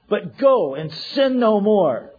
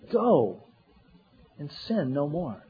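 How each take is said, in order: First: It is said in a stern, warning tone. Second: It is said in a gentle, kind tone. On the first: The speaker is threatening punishment if it happens again. The speaker calls it wrong. "I don't think that was the Lord's tone" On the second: The speaker is reassuring that the listener is forgiven and free. The speaker calls it right. "It was, no"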